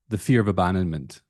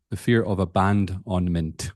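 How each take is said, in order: First: Said in the usual way. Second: "abandonment" pulled apart into syllable chunks; wordplay on abandonment. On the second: Shown as a demonstration. Host hinting at the "ban done" pun, "abandonment" broken up. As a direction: say "abandonment" piece by piece, like a-band-on-ment.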